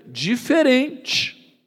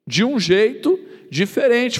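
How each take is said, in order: First: "diferente" stretched slow and high; drawn out. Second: "jeito" hit firmly, higher; stress on jeito. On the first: Preacher stressing "diferente" to the congregation, slow and stretched. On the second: Preacher repeating the point, stress on "jeito". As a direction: lean on "jeito" in "de um jeito diferente". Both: Shown as a demonstration. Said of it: "cada um desses cegos foi curado de uma maneira".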